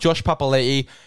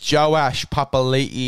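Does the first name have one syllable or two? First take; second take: one; two. First: The first name is said with one syllable. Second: The first name is said with two syllables. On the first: The speaker calls it wrong. "it's not Josh Papali'i" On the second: The speaker calls it right. "it's Joash Papali'i"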